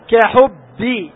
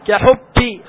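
First: The final b is voiced and strong with a bounce. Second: The final b is weak, without a voiced bounce. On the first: The speaker calls it right. "الجهر والشدة والقلقلة" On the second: The speaker calls it wrong. "خطأ"

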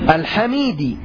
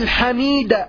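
First: The word ends with the vowel i. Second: The word ends with the vowel a. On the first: The word agrees in case with the word before it. "إتباع لما قبله في الإعراب" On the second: The word is the object of an omitted 'I praise'. "النصب تقول الحمد لله الحميد"

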